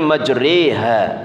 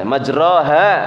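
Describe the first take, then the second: First: The vowel after r leans toward e. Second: The vowel after r is a plain open a. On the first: "boleh dibaca imalah menjadi majriha" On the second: "asalnya majroha"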